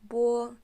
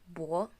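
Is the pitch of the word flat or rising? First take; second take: flat; rising. First: The pitch stays level and high. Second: The pitch rises from low to high. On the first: "First tone is bo" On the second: "and second would be bo"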